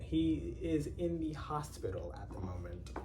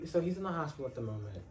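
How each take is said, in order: First: The sentence is spoken more slowly. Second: The sentence is spoken quickly. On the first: The speaker calls it right. "I'll try to repeat that again" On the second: The speaker calls it wrong. "I say them too fast"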